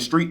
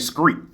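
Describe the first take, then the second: First: The word begins with a clear 'str' sound. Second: The word begins with a 'scr' sound. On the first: This is the standard pronunciation. "instead of saying street" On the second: This is how a local community says it. "they say screet"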